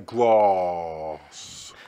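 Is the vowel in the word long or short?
long. The vowel is long, like 'grahss'. The speaker calls it wrong. "There's no R in it. So why would you say grass?"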